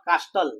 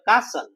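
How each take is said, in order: First: The t sound is pronounced. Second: The t sound is left silent. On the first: The speaker calls it wrong. "Not કાસ્ટલ" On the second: The speaker calls it right. "But કાસલ"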